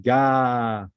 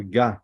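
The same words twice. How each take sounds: First: Ga held long as "gaaah"; Ga with a sustained open "ah"; long vowel. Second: Ga said short, "gah"; Ga with a brief open "ah"; short vowel. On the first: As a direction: draw out the vowel of Ga. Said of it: "Gadol means long". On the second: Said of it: "A, the short one". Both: Shown as a demonstration.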